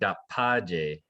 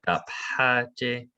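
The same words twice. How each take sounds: First: The word is said without a breathy H. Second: The word is said with a breathy H. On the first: The speaker calls it wrong. "I'm kind of hearing dapaje" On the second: The speaker calls it right. "instead of dapaje"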